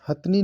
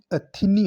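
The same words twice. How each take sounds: First: हथनी in two beats, "hath-nee"; wrong form. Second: अथिनी with i after th; correct form. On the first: Teacher rejecting the wrong form: हथनी as "hath-nee". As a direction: say हथनी with no vowel after th. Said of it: "नहीं". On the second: Teacher giving the right form: अथिनी with middle i. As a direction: say "ha-thi-nee" for अथिनी. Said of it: "होता है". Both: Shown as a demonstration.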